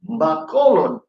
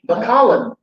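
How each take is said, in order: First: It is said with a local Filipino pronunciation. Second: It is said with an English-style pronunciation. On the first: The speaker calls it right. "but it's Bacolod" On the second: The speaker calls it wrong. "you pronounce it like like uh, English"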